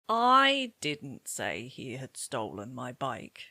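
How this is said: The word "I" carries the main stress. It was not the speaker but somebody else who said it. "I can hear that you've stressed I"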